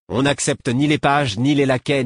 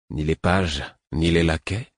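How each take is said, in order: First: High and loud, contemptuous listing; sneering. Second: Ironic echo. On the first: Young guard mocking a servant, high loud sneer. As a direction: spit out each servant rank with scorn. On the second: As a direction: toss his words back with a dry smile. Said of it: "Un petit sourire ironique". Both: Acted.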